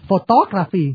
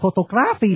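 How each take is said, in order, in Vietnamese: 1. Trọng âm không nằm ở âm tiết gra. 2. Trọng âm nằm ở âm tiết gra. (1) "Cái nghề nhiếp ảnh không được nhấn chữ gra" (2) "là không được"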